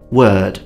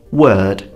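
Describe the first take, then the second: First: The R sound is silent. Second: The same.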